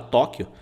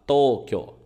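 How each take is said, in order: First: The vowels are short, Portuguese style. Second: The vowels are held long, Japanese style. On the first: The speaker calls it wrong. "Em português a gente fala Tóquio" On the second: The speaker calls it right. "Em japonês você tem que falar Tóquio. ... Temos o prolongamento aqui"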